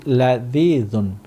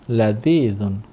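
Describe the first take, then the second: No difference in how they are said.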